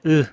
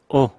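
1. 이 단어는 줄어들어 순수한 슈와가 됩니다. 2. 이 단어는 f 없이 짧은 o로 발음합니다. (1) "첫 번째 으" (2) "짧게 o"

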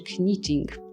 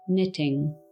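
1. Słowo zaczyna się dźwiękiem k. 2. Słowo zaczyna się dźwiękiem n. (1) "jeżeli czytalibyśmy właśnie z K" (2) "po prostu opuszczamy K"

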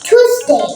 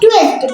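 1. এতে দুটি সিলেবল আছে, কোনো অতিরিক্ত গ্লাইড নেই। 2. এতে তিনটি সিলেবল আছে, T-এর পরে একটি গ্লাইড থাকে। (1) "এটা হবে টুসডে" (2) "এটা কিন্তু আমরা অনেকে টুয়েসডে বলি"

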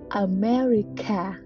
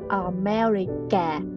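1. Phụ âm đứng trước nguyên âm cuối là âm k. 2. Phụ âm đứng trước nguyên âm cuối không phải là âm k.

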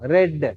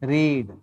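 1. உயிர் ஒலி குறுகியது, 'red' போல. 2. உயிர் ஒலி நீண்டது, 'reed' போல. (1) "அதே ஸ்பெல்லிங் தான், ஆனா ப்ரொனன்சியேஷன் மாறும்" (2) "படிக்கிறதுக்கு என்ன இங்கிலீஷ்ல?"

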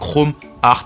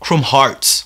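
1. Hearts se prononce à la française, comme 'art'. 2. Hearts se prononce à l'anglaise, comme 'harts'. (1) "en français, pour moi, Chrome Hearts. C'est vrai que ça ressemble du coup au mot art" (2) "ça se prononce Chrome Hearts en anglais"

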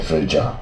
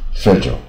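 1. 这是英式发音。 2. 这是美式发音。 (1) "英国念fragile" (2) "K 音标是美式发音"

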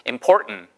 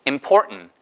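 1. 가운데 t는 코로 삼키는 소리예요. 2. 가운데 t는 코로 삼키는 소리예요.

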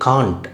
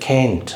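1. இது அமெரிக்கர் அல்லாத உச்சரிப்பில் சொல்லப்படுகிறது. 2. இது அமெரிக்க உச்சரிப்பில் சொல்லப்படுகிறது. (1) "அப்புறம் நம்ம வந்து காண்ட்" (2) "அமெரிக்கன் இங்கிலீஷில் கேண்ட் அப்படின்னு"

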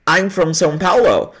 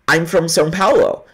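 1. As palavras se juntam rápido, como uma só. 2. As palavras se juntam rápido, como uma só.

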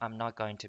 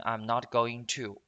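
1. 'going to' 弱化了，快速连在一起读。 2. 'going to' 每个词都清楚地完整发音。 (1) "一般都是美国人都喜欢说" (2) "我们在正常的口语当中不会读成"

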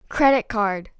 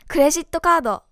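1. 一番目の単語を強く読みます。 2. 二番目の単語を強く読みます。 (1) "全部前の方強く読むの？" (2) "じゃないよね"

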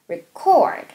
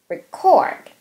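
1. 강세는 두 번째 음절에 있어요. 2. 강세는 두 번째 음절에 있어요.

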